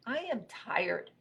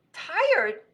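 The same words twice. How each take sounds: First: Slow, high-pitched tired statement; weary robot. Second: High, loud one-word question; incredulous echo. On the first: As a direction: drag the words out wearily. Robot twitches, worn out. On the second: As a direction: throw the word back in disbelief. Rabbit incredulous at tired robot. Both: Acted.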